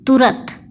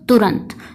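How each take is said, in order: First: The last syllable has no nasal sound. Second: The last syllable has a nasal sound. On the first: The speaker calls it wrong. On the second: The speaker calls it right.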